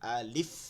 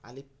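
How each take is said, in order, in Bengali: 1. শেষের f বাতাস দিয়ে স্পষ্টভাবে ছাড়া হয়। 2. শেষের f দুর্বল এবং প্রায় ছাড়া হয় না। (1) "এই যে শেষে গিয়া এই দাঁত দুইটা এইখানে চাইপা ধরে বাতাস বের করবো" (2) "আলিফ না"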